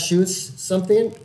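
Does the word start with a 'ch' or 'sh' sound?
sh. The word begins with a soft 'sh' sound. The speaker calls it wrong. "you'll switch the fucking ch and sh"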